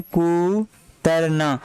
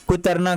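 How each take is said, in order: First: कुतरना drawn out very slowly in syllables; slow syllable demo. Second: Said in the usual way. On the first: Shown as a demonstration. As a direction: stretch कुतरना out, "कू... तर... ना". (कुतरना को धीरे-धीरे, खींचकर बोलें) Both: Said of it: "कह सकते हैं, कुतरना".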